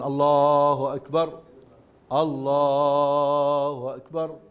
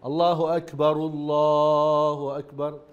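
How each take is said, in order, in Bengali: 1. প্রতিটি বাক্যাংশ আলাদাভাবে বলা হয়, মাঝখানে বিরতি দিয়ে। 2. দুটি বাক্যাংশ বিরতি ছাড়া একসঙ্গে জুড়ে বলা হয়। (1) "থেমে থেমে বলতে পারেন" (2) "দুইটা একসঙ্গে যেতে পারেন"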